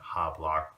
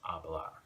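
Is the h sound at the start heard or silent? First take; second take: heard; silent. First: The word begins with an audible h sound. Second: The word begins directly with the vowel sound. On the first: The speaker calls it wrong. "pronouncing the H ... You don't want to do that" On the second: The speaker calls it right. "you want to make that H silent"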